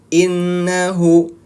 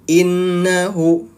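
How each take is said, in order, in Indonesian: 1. Bunyi n ganda hanya satu ketukan. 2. Bunyi n ganda hanya satu ketukan.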